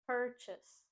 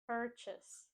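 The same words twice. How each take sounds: First: The stress is on the first syllable. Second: The same.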